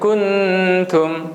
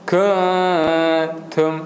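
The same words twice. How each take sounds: First: The n is pronounced fully and clearly. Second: The n is hidden in a nasal sound. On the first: The speaker calls it wrong. "Kita tak boleh baca kuntum. Sebab kun dia akan jadi jelas" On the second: The speaker calls it right. "Jadi kita baca kun, kuntum"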